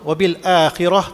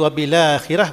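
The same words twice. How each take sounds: First: A glottal stop separates bil from akhirah. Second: The l links straight into akhirah, no stop.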